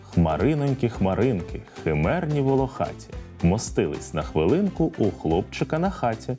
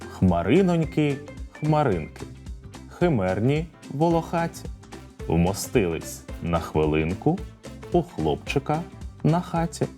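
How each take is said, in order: First: It is spoken at a moderate pace. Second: It is spoken slowly. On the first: "А тепер трохи швидше" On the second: "Повторюйте за мною спочатку повільно"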